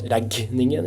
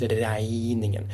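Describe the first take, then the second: First: The g is pronounced as a hard g. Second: The g is pronounced like an i-sound. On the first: The speaker calls it wrong. "It's not regningen" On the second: The speaker calls it right. "the G is an I"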